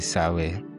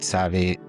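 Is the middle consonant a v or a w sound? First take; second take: w; v. First: The middle consonant is a w sound. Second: The middle consonant is a v sound. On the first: "others say Sawe" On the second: "Some pronounce it Save"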